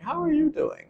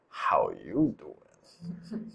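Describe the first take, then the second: First: A genuine question with a rising tune. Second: A flirtatious line with a suggestive undertone.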